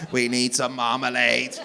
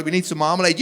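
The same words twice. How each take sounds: First: Slow, measured robot monotone; stiff, word-by-word android delivery. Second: Said in the usual way. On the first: Acted. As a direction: say it like a reluctant robot. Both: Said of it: "You said you talk like a robot".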